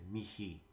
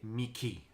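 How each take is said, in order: First: The middle consonant is a soft breathy h. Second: The middle consonant is a hard sound. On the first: The speaker calls it right. "a soft H or a, a, a aspiration H" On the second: The speaker calls it wrong. "that classical pronunciation"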